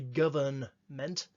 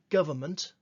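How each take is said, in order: First: The N before -ment is clearly sounded. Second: The N before -ment is dropped. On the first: The speaker calls it wrong. "We don't say government" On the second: The speaker calls it right. "We say government"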